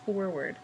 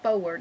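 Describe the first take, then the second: First: The R sound in the word is pronounced. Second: The R sound in the word is dropped. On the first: The speaker calls it right. "there's an R in there" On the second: The speaker calls it wrong. "it's not forward"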